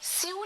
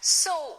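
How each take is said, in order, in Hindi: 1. यह शब्द 'syoo' जैसा सुनाई देता है, oo स्वर के साथ। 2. यह शब्द 'so' जैसा सुनाई देता है, oh स्वर के साथ। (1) "स्यू नहीं होता" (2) "उसकी सही प्रोनाउंसिएशन इज सो"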